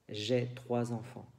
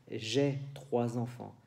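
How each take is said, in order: The two takes are said the same way.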